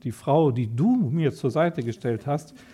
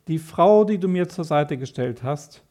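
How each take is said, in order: First: The word 'du' is strongly stressed. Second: The word 'du' carries no special stress. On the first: The speaker calls it right. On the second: The speaker calls it wrong.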